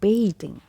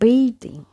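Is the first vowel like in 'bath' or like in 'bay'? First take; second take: bay; bay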